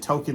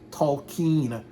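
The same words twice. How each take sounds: First: The name is said plainly without extra emphasis. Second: The name is said with exaggerated, heavy emphasis. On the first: "don't say Tolkien" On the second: "because they want to overemphasize um, his name"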